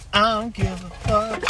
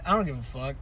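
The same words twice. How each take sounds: First: "I don't give a fuck" stretched out, higher. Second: Said in the usual way. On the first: Pretend. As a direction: draw out each word of "I don't give a fuck". Repeats own line in exaggerated way.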